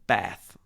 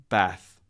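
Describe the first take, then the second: First: The vowel is a short, flat A. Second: The vowel is a short, flat A.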